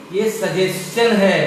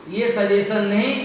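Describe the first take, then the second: First: "सजेशन" said with ch, sajes-chan; the right way, "सजेशन" as sajest-chan; correct pronunciation. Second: "सजेशन" said with a plain s sound; the wrong way, "सजेशन" with s, not ch; wrong pronunciation. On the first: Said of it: "सजेशन पढ़ेंगे". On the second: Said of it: "आप इसे सजेशन नहीं पढ़ेंगे". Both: Shown as a demonstration.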